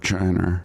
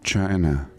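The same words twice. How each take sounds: First: The word ends with an added r sound. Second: The word ends in a plain vowel.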